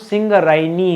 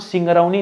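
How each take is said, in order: First: The vowel before 'ni' sounds like 'ay'. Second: The vowel before 'ni' sounds like 'ow'. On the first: The speaker calls it right. "हमारा नाम सिंगरैनी है" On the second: The speaker calls it wrong. "हमारा नाम सिंगरौनी नहीं है"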